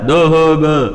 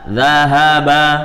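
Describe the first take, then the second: First: The a vowels are thick, close to o. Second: The a vowels are thin and open. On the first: The speaker calls it wrong. "jangan sampai zahaba dibacanya tebal" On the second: The speaker calls it right.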